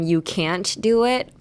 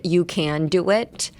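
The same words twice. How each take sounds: First: CAN'T cut short by a held t before DO IT; can't, T unreleased. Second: CAN running straight into DO IT, no stop; can without T. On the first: Teacher correcting the can reading, slow can't with held t. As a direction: keep the can't, slowly, stopping before do. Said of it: "It is still". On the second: Teacher warning learners what not to say, plain slow can. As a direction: glide from can into do, slowly. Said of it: "should pronounce it like". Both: Shown as a demonstration.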